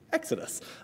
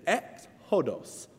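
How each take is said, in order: First: The word is said quickly, parts run together. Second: The word is said slowly, parts kept apart.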